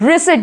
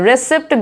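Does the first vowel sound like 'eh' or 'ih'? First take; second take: ih; eh. First: The first vowel sounds like 'ih'. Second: The first vowel sounds like 'eh'. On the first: The speaker calls it right. "रिसिप्ट बोलेंगे।" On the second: The speaker calls it wrong. "रेसिप्ट गलत है"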